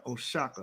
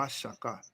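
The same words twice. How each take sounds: First: "Oaxaca" said as "oh-SHAH-ka", O as a plain "oh"; spelling pronunciation. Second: "Oaxaca" said as "wa-SHAH-ka", O as "wa"; corrected pronunciation. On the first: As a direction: read "Oaxaca" letter by letter, O as "oh", X as "sh". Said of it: "The O in the Spanish codices is pronounced". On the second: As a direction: say "Oaxaca" starting with "wa", X as "sh". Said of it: "The O in the Spanish codices is pronounced wa". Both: Shown as a demonstration.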